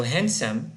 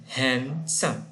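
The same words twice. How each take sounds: First: Said in the usual way. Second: "handsome" split as "hand... some"; "handsome" in two separate, countable beats; syllable by syllable. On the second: Shown as a demonstration. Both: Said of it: "How many do we have?".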